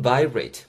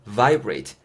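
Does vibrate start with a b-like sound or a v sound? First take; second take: b-like; v. First: It starts with a b-like sound, lips touching. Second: It starts with a v sound, lips not touching. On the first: The speaker calls it wrong. "vibrate보다는" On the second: The speaker calls it right. "V 사운드는 양입술이 절대 윗입술, 안입술이 안 닿는다라는 거"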